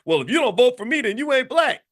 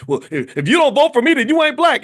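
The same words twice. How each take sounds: First: High mock outburst, less loud; imitating a politician losing composure; cracking. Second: High, loud mock outburst; imitating an angry politician yelling; blowing up. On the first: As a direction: snap it like he cracked under pressure. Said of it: "Biden just cracked and said". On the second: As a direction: shout it out like he lost his temper. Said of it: "he blew up and said".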